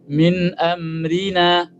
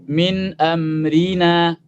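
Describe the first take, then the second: The two takes are said the same way.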